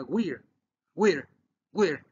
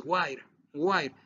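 First: "weir" with a short i, like "wirr"; without silent E. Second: "wire" with a long I, like "why-er"; with silent E. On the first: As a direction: model "weir" as one short syllable, no long I. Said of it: "si yo le quito la E". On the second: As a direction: model "wire" with the vowel saying its alphabet name. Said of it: "Y si la pongo". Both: Shown as a demonstration.

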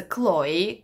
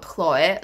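First: Chloe said as KLOH-ee, with a hard K and ee ending; correct pronunciation. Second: Chloe said as KHLOH-eh, with a throaty KH and eh ending; mispronunciation. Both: Shown as a demonstration. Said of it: "I pronounced your name wrong".

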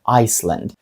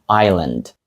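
First: Island mispronounced like Iceland; island with sounded S. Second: Island said "eye-land"; island with silent S. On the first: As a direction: sound the s, "ice-land". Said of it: "тобто, по ідеї, могло б звучати". (island зі звуком «с», як Iceland) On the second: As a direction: leave out the s in island. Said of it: "тут S не вимовляється". (island з німою «с», як «айленд») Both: Shown as a demonstration.

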